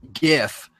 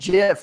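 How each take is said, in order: First: It begins with a hard G sound. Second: It begins with a soft J sound. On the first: "it's a hard G when you say" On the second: "he said GIF like the peanut butter"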